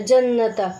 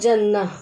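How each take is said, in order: First: The word ends with a t sound and vowel. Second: The word ends with a soft h sound. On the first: The reading continues without stopping. "ये जन्नता हम पढ़ते हैं" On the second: The reader stops on this word. "जब इस पे रुको तो जन्नह"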